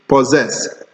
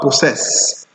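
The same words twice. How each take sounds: First: The first double S is a Z sound. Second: The first double S is an S sound. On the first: The speaker calls it right. "The first S S gives us the Z sound" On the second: The speaker calls it wrong.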